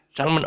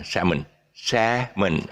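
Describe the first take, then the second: First: "salmon" said "SAL-mun", L sounded. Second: "salmon" as slow "SAM-un", no L; salmon, silent L. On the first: Teacher showing the common mistake, "salmon" with sounded L. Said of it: "lots of people pronounce this, this fish as salmon". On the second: Teacher giving real pronunciation, "salmon" slow with silent L. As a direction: drop the L from "salmon", slowly. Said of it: "don't ask me why the L is taken off". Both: Shown as a demonstration.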